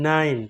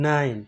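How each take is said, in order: The two takes are said the same way.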